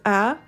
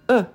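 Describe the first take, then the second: First: The word is said with a full ah vowel. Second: The word is said with a weak uh vowel. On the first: The speaker calls it wrong. "is not pronounced as ah" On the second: The speaker calls it right. "it's pronounced as uh"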